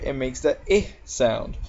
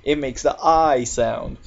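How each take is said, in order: First: "I" said as ih, as in fit; short I sound. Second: "I" said as eye, as in fight; long I sound. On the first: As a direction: stress a short ih vowel on "I". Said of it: "has anything else after it". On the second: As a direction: stress a long eye vowel on "I". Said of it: "has the letters G H T". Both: Shown as a demonstration.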